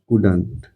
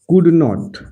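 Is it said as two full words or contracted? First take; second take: contracted; full. First: It is said as one contracted word. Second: It is said as two full words.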